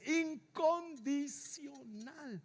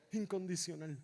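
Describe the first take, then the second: First: "incondicional" drawn out slowly, syllable by syllable; syllable-by-syllable stress. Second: "Incondicional" said low and soft, unstretched; hushed repeat. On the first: Preacher on a father's love, "incondicional" slowly spelled out in syllables. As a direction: stretch each syllable of "incondicional" for weight. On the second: Preacher letting it sink in, "Incondicional" low and hushed. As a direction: let "Incondicional" drop to a quiet echo. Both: Real, not acted.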